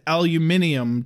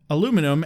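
First: It is said with five syllables. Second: It is said with four syllables. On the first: This is the British way. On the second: This is the American way.

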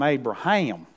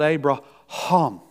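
First: It is said in a Southern US accent. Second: It is said the Hebrew way, with gutturals.

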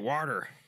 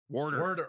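First: The word is said without an r sound. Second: The word is said with an r sound. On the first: "I don't say water" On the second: "It's just our intrusion"

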